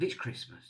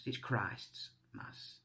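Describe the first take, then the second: First: Said in the usual way. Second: "Christ's Mass" said slowly and softly, each part separate; Christ's Mass spelled out. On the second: Shown as a demonstration. Vlogger explaining to viewers where Christmas comes from, slow and separated. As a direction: break "Christ's Mass" into its two words, slow and hushed. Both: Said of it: "let's not call it Xmas anymore".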